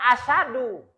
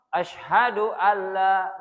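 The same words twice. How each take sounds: First: "asyadu" said without the h; wrong version. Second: "Asyhadu alla" with the h clearly voiced and a doubled l; correct idgham. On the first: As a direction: drop the h in "asyadu". ("asyadu" tanpa huruf h) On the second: ("Asyhadu alla" dengan h jelas dan lam tasydid) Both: Shown as a demonstration. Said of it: "bukan asyadu".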